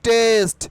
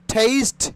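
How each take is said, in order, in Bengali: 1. প্রথম t টা সাধারণ, অ্যাসপিরেশন ছাড়া। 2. প্রথম t টা জোরে অ্যাসপিরেটেড। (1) "নট টেস্ট" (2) "ঠয়কারে ঠে"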